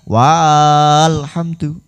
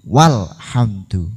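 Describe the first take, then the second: First: The first vowel is drawn out long. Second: The first vowel is kept short. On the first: The speaker calls it wrong. "bukan berarti walhamdu" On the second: The speaker calls it right. "tapi walhamdu karena dia ada di tengah diikuti sukun"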